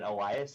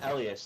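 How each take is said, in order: First: The name is said with an Anglo pronunciation. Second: The name is said with a Nordic pronunciation. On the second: "there's like a Swedish Nordic way to say it, and so that's mine"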